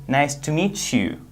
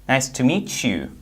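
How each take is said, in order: Both takes have the same delivery.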